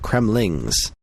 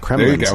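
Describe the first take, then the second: First: The word ends with an ng sound. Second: The word ends with an n sound. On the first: The speaker calls it right. "it's the Kremlings" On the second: The speaker calls it wrong. "it's not the Kremlins"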